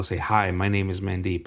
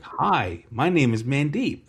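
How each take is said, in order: First: Said in the usual way. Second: Higher, deliberate introduction; demonstrating "Canadian". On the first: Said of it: "he's like, "I don't know". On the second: Retold or imitated. New boy showing schoolmate his "Canadian", higher demonstrative voice. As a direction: announce it like a language demonstration. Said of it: "What do you want me to say in Canadian".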